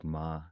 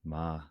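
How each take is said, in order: The two takes are said the same way.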